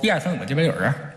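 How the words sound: It is counted in a mumbled Beijing accent.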